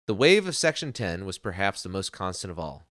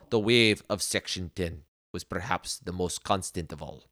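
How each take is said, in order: First: It is read in the speaker's usual accent. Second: It is read in a put-on Russian accent.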